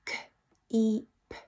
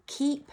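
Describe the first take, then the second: First: "K-E-P" as three separate phonic sounds; "K-E-P" segmented for blending, long ee in the middle; sounding out. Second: Said in the usual way. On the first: Shown as a demonstration. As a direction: say "K-E-P" sound by sound, softly, with gaps. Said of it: "he can only speak in sounds". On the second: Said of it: "blend those sounds together".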